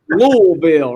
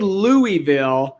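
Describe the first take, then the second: First: The name is said the local, drawled way. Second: The name is said the outsider way. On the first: The speaker calls it right. "It's Louisville, right? You gotta say like Louisville" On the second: The speaker calls it wrong. "Never say Louisville"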